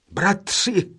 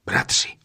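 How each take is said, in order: First: Joyful cry. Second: Breathless call. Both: A narrator's reading. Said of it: "vzkřikl radostně nejstarší".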